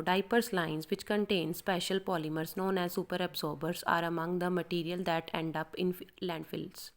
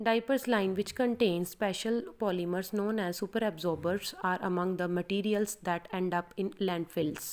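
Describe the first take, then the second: First: Slow, careful practice reading. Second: Slow, steady exam-style reading; slow demo read. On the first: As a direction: read it through slowly to prepare. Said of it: "इसको पहले इसको prepare करो". (धीमी तैयारी वाली पढ़ाई) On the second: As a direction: show the exam reading, every word clear. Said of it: "मैं अभी आपको बोल के बताती हूँ". (धीमा, साफ़ डेमो पढ़ना) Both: Shown as a demonstration.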